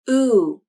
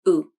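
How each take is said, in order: First: The vowel is louder, higher, gliding up then down. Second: The vowel is quieter, lower, flatter and faster. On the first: "Stressed oo" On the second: "Unstressed oo"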